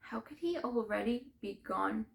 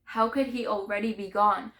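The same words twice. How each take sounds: First: Grieving question, held in. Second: Loud, grief-stricken demand; anguished outburst. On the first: First, stunned take of the question. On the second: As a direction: cry out the question in disbelief. Grief bursts out on repeated question. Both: Acted.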